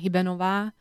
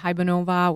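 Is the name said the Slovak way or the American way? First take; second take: Slovak; American. First: The name is said the Slovak way. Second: The name is said the American way.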